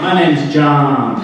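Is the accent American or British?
American. John is said with an American open vowel. Listeners understood the name. The speaker calls it right. "I learned to say"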